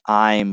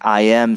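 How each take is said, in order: First: The two words are joined into one syllable. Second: Both words are said fully and separately. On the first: "saying I'm" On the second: "saying I am"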